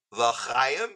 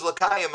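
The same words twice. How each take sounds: First: "L'chaim" slow, with throaty ch; "L'chaim" with guttural Hebrew ch; correct Hebrew pronunciation. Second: "L'chaim" with a hard k for ch; imitated mispronunciation. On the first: Retold or imitated. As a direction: say "L'chaim" carefully, scraping the ch. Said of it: "you got it right now". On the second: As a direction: say "L'chaim" as "la-KAI-um". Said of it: "I thought it was L'chaim".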